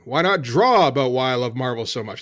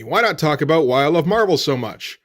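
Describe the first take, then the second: First: "draw" punched as the new word; stress on draw. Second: Said in the usual way. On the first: Shown as a demonstration. Cartoonist corrects his first idea, stress on "draw". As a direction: lean on "draw" to contrast it.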